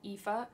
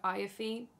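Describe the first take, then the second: First: The name is said in the standard way. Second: The name is said in the speaker's own way. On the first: This is how the name is really pronounced. The speaker calls it right. "I know you pronounce it Aoife" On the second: This is the name as the speaker first learned it. The speaker calls it wrong. "No, that's not how you pronounce it"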